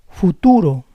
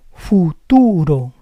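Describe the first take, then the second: First: Said in the usual way. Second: Futuro split as fu-TU-ro; syllable by syllable. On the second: Shown as a demonstration. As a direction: say Futuro in parts, stressing TU. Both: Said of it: "try to understand the rules".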